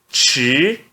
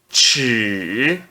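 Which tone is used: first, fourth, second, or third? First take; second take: second; third. First: It is said with the second tone. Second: It is said with the third tone. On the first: "no segundo tom" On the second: "No terceiro tom"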